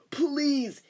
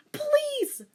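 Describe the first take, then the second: First: Said in the usual way. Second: Very high loud plea; pleading cry. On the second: Shown as a demonstration. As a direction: cry out please. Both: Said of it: "Wait, no".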